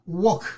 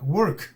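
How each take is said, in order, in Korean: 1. 모음은 walk의 모음처럼 들립니다. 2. 모음에 work의 r 발음 느낌이 들어 있어요.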